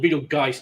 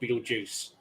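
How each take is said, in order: First: The name ends with a hard 'g' geist sound. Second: The name ends with a soft 'j' juice sound. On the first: The speaker calls it right. "it's called Beetlegeist" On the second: The speaker calls it wrong. "not Beetlejuice"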